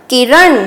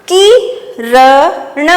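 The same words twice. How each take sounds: First: Said in the usual way. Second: Very slow, syllable by syllable; slow dictation. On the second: Shown as a demonstration. Teacher dictating to young pupils, drawn out slowly. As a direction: stretch each sound for the class. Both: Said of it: "तो ये कौन सा श्रुतलेख बन गया हमारा?".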